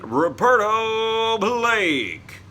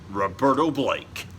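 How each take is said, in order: First: It is said in a booming announcer voice. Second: It is said in an ordinary voice.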